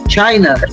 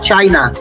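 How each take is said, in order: First: The final vowel is a weak schwa sound. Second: The final vowel is a full 'ah' sound. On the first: The speaker calls it right. "um schwa que tem, não é um som de A" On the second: The speaker calls it wrong. "É o português falando ali a palavra"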